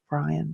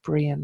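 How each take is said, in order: First: The name is said with an English pronunciation. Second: The name is said with an Irish pronunciation. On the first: The speaker calls it wrong. "not Brian, so my brain switched to English pronunciation" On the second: The speaker calls it right. "in Irish it's pronounced Brian"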